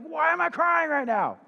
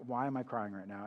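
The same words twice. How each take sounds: First: Much higher, louder, bewildered mock wail; mock teary bewilderment. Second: Softer, lower, mildly puzzled self-question; softer puzzled aside. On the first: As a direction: play a baffled half-crying outburst. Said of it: "you'll start crying and you'll be like". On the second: Retold or imitated. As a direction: ask yourself under your breath. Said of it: "I'm like".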